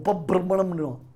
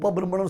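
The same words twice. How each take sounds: First: The word is said with heavy forceful pressure. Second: The word is said plainly without extra force. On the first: The speaker calls it wrong. "அப்படிலாம் அழுத்தணும் அவசியம் இல்லை" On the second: The speaker calls it right. "உபபிரம்மணம் சொல்லணும்"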